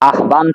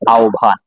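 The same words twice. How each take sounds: First: The h sound is pronounced before the b. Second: The h sound is silent; the b is aspirated.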